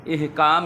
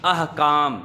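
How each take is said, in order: First: "इहकाम" opening with i; the wrong "इहकाम", ihkaam; teacher quotes the wrong "इहकाम"; wrong pronunciation. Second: "अहकाम" opening with a; teacher models "अहकाम"; correct pronunciation. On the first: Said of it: "नहीं होता". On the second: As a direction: say "अहकाम", ahkaam. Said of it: "हुक्म की जमा". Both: Shown as a demonstration.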